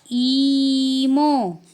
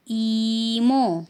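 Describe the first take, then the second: First: "ईमो" stretched very slowly and louder; teacher drawing out Korean "ईमो"; Korean term. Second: Teacher repeats Korean "ईमो"; Korean term repeated. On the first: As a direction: model "ईमो" slowly for students. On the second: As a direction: repeat "ईमो" for students to copy. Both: Shown as a demonstration. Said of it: "तो उनको बोलते हैं".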